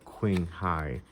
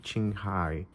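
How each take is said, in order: First: The name starts without a 'ch' sound. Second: The name starts with a 'ch' sound. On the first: "instead of" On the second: "I think they use the, the sound C H. So this could be"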